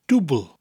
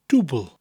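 Both takes have the same delivery.

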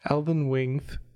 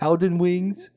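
First: The s sounds are lisped like th. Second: The voice is a cooing baby-talk voice. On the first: "If you say it with a lisp" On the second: "A bit like a baby talk"

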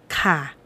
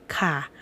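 First: The particle is said with its statement tone. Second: The same.

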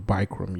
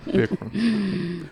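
First: The first vowel is a long 'eye' sound. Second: The first vowel is a short 'i' sound. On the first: The speaker calls it wrong. "not long eye" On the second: The speaker calls it right. "Short eye"

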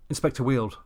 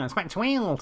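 First: It is said in no regional accent. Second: It is said in a West Country accent.

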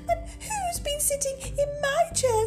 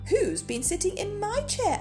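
First: It is said in a tiny, squeaky voice. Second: It is said in a medium-pitched voice.

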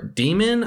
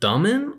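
First: The first vowel is not a soft 'uh'. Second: The first vowel is a soft 'uh' sound. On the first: "that's kind of how they pronounce it in the movie" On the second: "it has the soft U sound"

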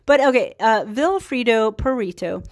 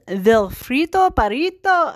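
First: The name is said in a plain English accent. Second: The name is said in a put-on Italian accent.

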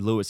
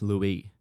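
First: The name ends with an S sound. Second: The name ends without an S sound. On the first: "if it was actually Louis, it would be spelled Lewis" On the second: "which in French, the S is silent and it's pronounced Louis"

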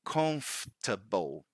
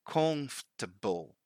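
First: The stress falls on the first syllable. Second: The same.

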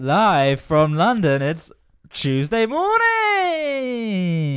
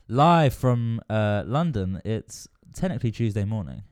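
First: It is said with lots of energy. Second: It is said with little energy.

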